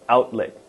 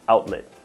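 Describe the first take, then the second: First: The T sounds are dropped. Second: The T sounds are clearly pronounced. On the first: The speaker calls it right. "we tend to drop the T here in the middle and at the end" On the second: The speaker calls it wrong. "It's not outlet"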